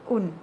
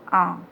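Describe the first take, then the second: First: The n is sounded as a consonant. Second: The vowel is nasal with no n sound. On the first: The speaker calls it wrong. "tidak kita baca dengan un" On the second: The speaker calls it right. "tapi kita baca dengan ang"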